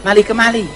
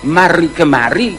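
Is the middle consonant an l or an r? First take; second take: l; r. First: The middle consonant is an l sound. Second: The middle consonant is an r sound. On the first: The speaker calls it wrong. "tetapi mali kemali" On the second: The speaker calls it right. "bukan mari kemari"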